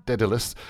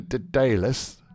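First: Dedalus with stress on DED; alternative pronunciation. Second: Dedalus with stress on DAY; alternative pronunciation. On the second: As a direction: say Dedalus as duh-DAY-lus. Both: Shown as a demonstration. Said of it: "Let's stick with Dedalus".

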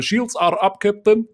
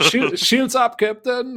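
First: Lightly put-on Russian accent. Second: High, loud officer report; bridge officer callout. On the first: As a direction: report to the captain in Russian accent. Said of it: "mit russischem Akzent zu sprechen". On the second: Pretend. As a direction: call it to the captain.

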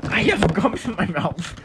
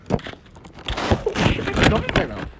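First: Chewing gum. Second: Talking around a wad of gum; chewing gum. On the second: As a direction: speak with gum in your mouth. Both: Real, not acted.

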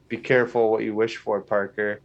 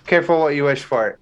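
First: Lightly imitated sinister voice, softer; half-hearted attempt at a sinister warning; Doctor Strange. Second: Said in the usual way. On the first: Podcaster quoting the trailer's warning to Parker, mildly sinister imitation. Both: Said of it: "in a very sinister voice".

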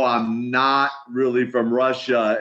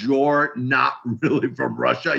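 First: Said in the usual way. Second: Lightly imitated broken Russian accent; a hint of broken Russian-accented English. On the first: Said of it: "I go". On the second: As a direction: echo it back in a halting, mock Russian accent. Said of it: "kind of a broken accent".

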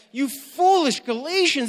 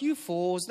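First: Higher and louder, exasperated; upset rebuke. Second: Said in the usual way. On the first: Retold or imitated. Paul rebuking foolish Galatians, angry and higher. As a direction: scold them, really upset. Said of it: "he's angry. He's really upset". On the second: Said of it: "Not like".

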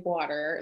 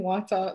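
First: "water" with an American R; American accent. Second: "water" with Jamaican vowels, no final R; Jamaican accent. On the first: Jamaican explaining she won't say it American, American accent. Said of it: "I have to say it the way it comes". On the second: Jamaican defending her own pronunciation, Jamaican accent. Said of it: "say it the way it comes to me". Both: Shown as a demonstration.

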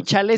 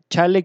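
First: "chale" stressed on the first syllable, CHA-le; "chale" as CHA-le, ending light; no accent on E. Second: "chale" stressed on the last syllable, cha-LÉ; "chale" as cha-LÉ, ending stressed; accent on final E. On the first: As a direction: say "chale" with an unstressed final E. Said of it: "sin acento en la E". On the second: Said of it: "con acento en la E". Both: Shown as a demonstration.

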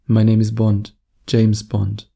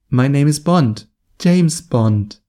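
First: Lower pitched. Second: Higher pitched. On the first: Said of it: "Totally different vibe". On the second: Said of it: "very high-pitched voice". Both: Shown as a demonstration.

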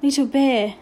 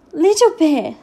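First: Clearly stated, slightly raised voice. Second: Higher, louder squeak. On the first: Boy rigid before the headmaster answers very clearly. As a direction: announce the name distinctly. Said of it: "very clearly and much louder than necessary". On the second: Frightened boy answers the headmaster, squeaking it out. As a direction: squeak the name out under pressure. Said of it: "Patrick squeaked out". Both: A narrator's reading.

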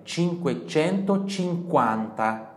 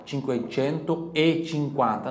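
First: "cinquecentocinquanta" run slowly together as one word. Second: "cinquecento e cinquanta" with an added "e", a bit slow; wrong form with E. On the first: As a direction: join it with no "e" in the middle. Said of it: "Não tem o E ali". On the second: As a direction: say the wrong version with the extra e. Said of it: "não". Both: Shown as a demonstration.

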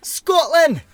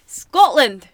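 First: Loud, high, hammed-up Scottish yell; a shouted, badly faked Scottish accent; terrible Scottish accent. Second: Mock Scottish accent. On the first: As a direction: bellow it in a bad Scottish accent. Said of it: "it's a terrible impression". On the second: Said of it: "just as bad".

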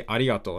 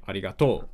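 First: Said in the usual way. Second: "arigato" in a different pitch pattern; altered pitch accent. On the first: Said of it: "they don't sometimes say". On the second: Shown as a demonstration. Showing inconsistent Japanese pitch, "arigato" with altered accent. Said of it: "and sometimes say".

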